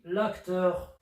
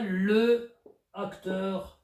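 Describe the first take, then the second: First: The article's vowel is dropped and linked to the noun. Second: The article's vowel is kept before the noun. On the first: The speaker calls it right. "On dit l'acteur" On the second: The speaker calls it wrong. "on ne dit pas le acteur"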